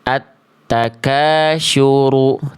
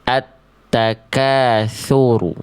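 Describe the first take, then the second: First: The key consonant sounds like sh. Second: The key consonant sounds like th. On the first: The speaker calls it wrong. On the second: The speaker calls it right.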